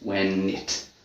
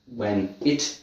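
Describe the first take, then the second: First: The n moves onto the second word. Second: The two words are said separately.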